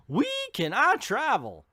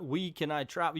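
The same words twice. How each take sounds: First: Quoted in a higher, louder mocking tone; mock hero line. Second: Said in the usual way. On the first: Reviewer mocking the Flash's first words, higher. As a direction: ham up "We can I travel?" with a high, bright lilt. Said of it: "the first words we hear out of his mouth".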